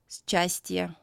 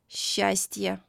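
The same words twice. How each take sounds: First: It starts with an s followed by ch. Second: It starts with one long soft sh sound. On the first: The speaker calls it wrong. "We don't read these words as" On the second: The speaker calls it right. "pronounced as the soft sound Sh"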